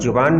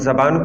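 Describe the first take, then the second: First: The first vowel is a 'u' sound. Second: The first vowel is an 'a' sound. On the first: The speaker calls it wrong. "नहीं कह सकते" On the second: The speaker calls it right. "हम ज़बान को ज़ुबान नहीं कह सकते"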